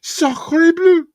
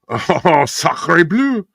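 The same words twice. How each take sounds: First: Put-on French accent, squealed very high; French director voice. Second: Put-on hammy French accent, high exclamation; French director voice. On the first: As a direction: shriek it in a cartoon French accent. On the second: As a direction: exclaim like an over-the-top French filmmaker. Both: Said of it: "the French director".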